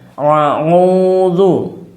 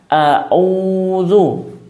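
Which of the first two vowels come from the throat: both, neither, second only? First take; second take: both; neither. First: Both opening vowels are made deep in the throat. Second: Both opening vowels are made plainly in the mouth. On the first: "Atau bahkan menjadi ain semuanya" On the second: "Atau alif semuanya"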